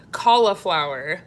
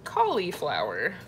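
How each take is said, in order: First: "Cauliflower" with a short middle vowel, coll-uh-flower; cauliflower, usual way. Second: "Cauliflower" said as collie-flower, like the dog. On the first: Reading out a viewer's word, cauliflower with an uh in the middle. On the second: Showing viewers her own way, cauliflower like the collie dog. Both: Shown as a demonstration. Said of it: "I say it like the dog".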